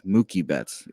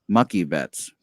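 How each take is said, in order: First: The first vowel is long, as in kooky. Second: The first vowel is short, as in cookie. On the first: The speaker calls it wrong. "but it's Mookie Betts. We don't say kooky for cookie" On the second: The speaker calls it right. "it should be Mucky Betts"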